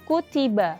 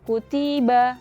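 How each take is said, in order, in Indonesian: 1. Semua suku kata sama-sama pendek. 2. Salah satu suku kata lebih panjang atau lebih pendek dari yang lain. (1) "semuanya pendek maka dibacanya harus sama" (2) "bukan seperti itu"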